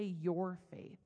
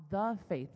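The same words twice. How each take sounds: First: "your" stressed ahead of "faith". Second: "the" stressed and said as "thee". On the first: Preacher showing the wording scripture avoided, stress on "your". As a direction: lean hard on the word "your". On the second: Preacher quoting scripture's exact wording, stress on "the". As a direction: lean hard on the word "the". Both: Shown as a demonstration. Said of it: "notice he didn't say your faith".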